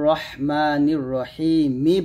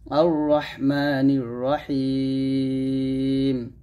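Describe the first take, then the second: First: The last word ends with a short 'i' vowel. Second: The last word ends clipped on the 'm' sound. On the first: The verse is joined to the next one. "রহিমি বলতে হবে, সেটা আমরা এক লিফ টান দিব আর মিম জের মি উচ্চারণ করব" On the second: The reciter stops at the end of the verse. "যদি আমরা এখানে থেমে যাই তখন বলবো"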